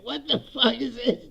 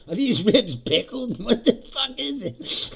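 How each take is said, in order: First: Higher, outraged what-the-hell; shocked disgust. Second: Slower, half-laughing disbelief; slow laughing disgust. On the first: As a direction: recoil at the taste, pitched up. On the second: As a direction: drag it out while laughing at the ribs. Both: Retold or imitated. Disgusted at the vinegar ribs.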